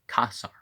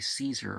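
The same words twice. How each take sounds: First: It begins with a K sound and 'ah'. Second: It begins with an S sound and 'ee'. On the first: This is the Latin pronunciation. The speaker calls it right. "the A E as ah, and the C as a K sound" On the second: This is not the Latin pronunciation. The speaker calls it wrong. "so we don't say Caesar"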